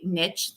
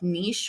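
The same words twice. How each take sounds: First: The word is given its anglicized English pronunciation. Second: The word is given its original French pronunciation. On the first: "it has become so anglicized, and there are so many people who say niche these days" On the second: "it does have French origins, which means the original pronunciation was probably something like niche"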